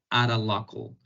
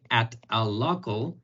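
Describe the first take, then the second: First: The t is a quick R-like tap. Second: The t is a plain, separate T sound. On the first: The speaker calls it right. "sonaría mejor decir at a local, que sería ara" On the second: The speaker calls it wrong. "en lugar de"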